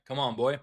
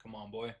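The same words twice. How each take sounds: First: Louder, higher excited coaxing; cheering the price on; loud urging. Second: Soft hopeful mutter under breath; quiet urging. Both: Real, not acted. Urging a trade to fill.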